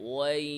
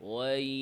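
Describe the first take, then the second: Both takes have the same delivery.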